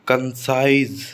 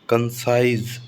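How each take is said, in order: No difference in how they are said.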